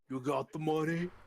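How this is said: It is said in a put-on character voice.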